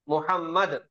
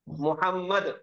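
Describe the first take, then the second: Both takes have the same delivery.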